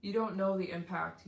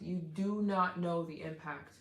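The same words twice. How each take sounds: First: Said in the usual way. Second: "not" spelled out and hit, slow; slow down and lean on "not"; stress on not. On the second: Real, not acted.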